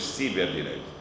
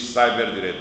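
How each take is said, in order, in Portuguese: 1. A primeira parte é pronunciada à maneira portuguesa. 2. A primeira parte é pronunciada como o inglês cyber. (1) "diz ciberdireito" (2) "em português não se diz cyberdireito"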